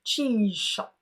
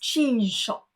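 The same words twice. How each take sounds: First: The z and sh merge into one zh sound. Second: The z and sh merge into one zh sound.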